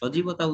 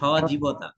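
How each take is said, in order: First: It uses the common everyday pronunciation. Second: It uses a careful, precise pronunciation. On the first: The speaker calls it wrong. "ভুল উচ্চারণ হচ্ছে, সজীবতা উচ্চারণ নয়।" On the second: The speaker calls it right. "উচ্চারণ হচ্ছে সজীবতা।"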